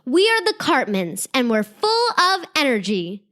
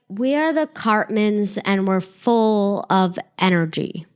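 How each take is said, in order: First: It is said firmly, with strong conviction. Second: It is said flatly, without conviction. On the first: The words are meant and believed. The speaker calls it right. "say it with intention and meaning" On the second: The words are said without really meaning them. The speaker calls it wrong. "don't just say it like"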